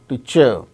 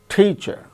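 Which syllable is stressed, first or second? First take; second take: second; first. First: The stress is on the second syllable. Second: The stress is on the first syllable. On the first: The speaker calls it wrong. "not teacher" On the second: The speaker calls it right. "the first syllable is stressed"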